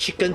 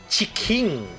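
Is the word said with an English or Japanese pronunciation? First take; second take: English; Japanese. First: It is said with an English pronunciation. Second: It is said with a Japanese pronunciation. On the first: "I always pronounce it as chicken" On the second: "In Japan they don't call it chicken, they call it chicken"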